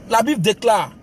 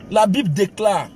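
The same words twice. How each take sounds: The two takes are said the same way.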